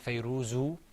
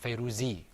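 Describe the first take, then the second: First: The name ends with an u vowel. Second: The name ends with an i vowel. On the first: "We didn't say Fayruzu" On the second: "or Fayruzi"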